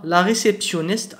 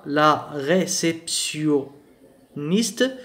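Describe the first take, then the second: First: Said in the usual way. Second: Very slow, drawn-out French word; syllable by syllable. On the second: Shown as a demonstration. Teacher sounding out a word for French learners, syllable by syllable.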